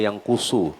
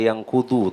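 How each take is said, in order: First: The middle consonant sounds like an s. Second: The middle consonant sounds like a d. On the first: The speaker calls it right. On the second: The speaker calls it wrong.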